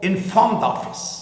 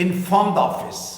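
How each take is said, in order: Both takes have the same delivery.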